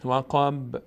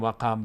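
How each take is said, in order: First: وقب with a light, short echo on the qaf; a slight bounce, no vowel after the qaf of وقب; correct qalqala. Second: وقب with the qaf given a kasra; too much bounce on the qaf of وقب; wrong qalqala. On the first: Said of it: "نه، وقب". (قلقلهٔ درست در وقب) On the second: (وقب نادرست با کسره) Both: Shown as a demonstration.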